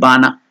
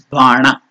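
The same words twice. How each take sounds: First: The n is made with the tongue at the teeth. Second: The n is made with the tongue curled back. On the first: The speaker calls it wrong. "It's not Bana" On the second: The speaker calls it right. "the tongue should touch the palate"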